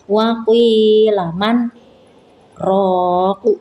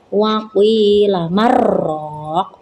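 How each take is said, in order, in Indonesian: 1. Ada jeda singkat antara man dan raq. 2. Kata-katanya menyambung tanpa jeda. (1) "berhenti sejenak dua harokat tanpa bernafas" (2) "Tidak boleh dibaca waqila marraq"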